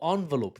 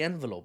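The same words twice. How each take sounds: First: It is said with an American pronunciation. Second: It is said with a British pronunciation.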